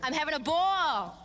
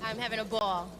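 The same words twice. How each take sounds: First: It is said with much more energy. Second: It is said with little energy.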